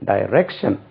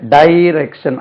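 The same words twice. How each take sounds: First: The stress is on the second syllable. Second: The stress is on the first syllable. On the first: The speaker calls it right. "ரெண்டாவது ர வருது இல்லையா, அதுக்கு மேலே தான் stress பண்ணணும்" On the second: The speaker calls it wrong. "நம்ம சொல்றது டைரக்ஷன் டைரக்ஷன் அப்படி சொல்லக்கூடாது"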